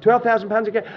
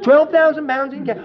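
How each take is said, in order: First: Said in the usual way. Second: "Twelve thousand pounds in cash?" loud and high in disbelief; stunned question, much louder and higher; can't believe the offer; astonished disbelief. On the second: Retold or imitated.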